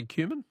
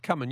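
First: "cumin" said KYOO-min; "cumin" with a long y-oo, as a question; KYOO-min pronunciation. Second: "cumin" said KUM-in; "cumin" with a short uh, no y sound; KUM-in pronunciation. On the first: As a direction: say "cumin" with a "cue" first syllable. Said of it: "You say, you say cumin". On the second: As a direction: say "cumin" to rhyme with "summon". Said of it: "I've always said cumin". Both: Shown as a demonstration.

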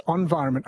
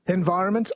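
First: "environment" starting like "on", falling at the end; ON pronunciation. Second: "Environment" starting with EN, rising at the end; EN pronunciation. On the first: Host testing another word, on-VIRONMENT. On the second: Host testing another word, en-VIRONMENT. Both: Shown as a demonstration. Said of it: "No one says on".

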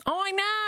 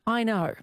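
First: High, exaggerated disbelief; hammed-up high exclamation; mock amazement. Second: Said in the usual way. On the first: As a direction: pitch it way up, playfully incredulous.

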